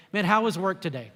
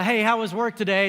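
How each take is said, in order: First: Said in the usual way. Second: Breezy cliche greeting. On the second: Shown as a demonstration. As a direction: toss off "Hey, how was work today?" as pure routine. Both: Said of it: "And cliche".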